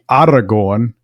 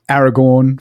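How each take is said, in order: First: The first vowel is like the 'a' in father. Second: The first vowel is like the 'a' in cat. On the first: The speaker calls it right. "it really should be" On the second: The speaker calls it wrong. "we frequently say"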